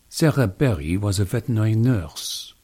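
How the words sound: It is spoken in a French accent. "you'd be able to shout out French right away"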